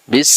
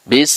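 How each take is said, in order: No difference in how they are said.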